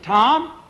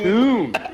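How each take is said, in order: First: The vowel sounds like the vowel in 'bomb'. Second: The vowel sounds like the vowel in 'boom'. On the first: The speaker calls it wrong. "T O M B" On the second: The speaker calls it right.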